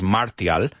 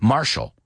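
First: The middle consonant is a t sound. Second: The middle consonant is a sh sound. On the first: The speaker calls it wrong. "no es martial" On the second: The speaker calls it right. "La T-I-A es, en este caso, shh"

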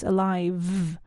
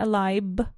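First: The middle consonant is a vibrating V sound. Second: The middle consonant is a B sound. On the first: The speaker calls it right. "with that lovely vibrating V sound" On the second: The speaker calls it wrong. "it's not alive, b, with a B sound"

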